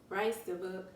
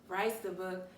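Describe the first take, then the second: No difference in how they are said.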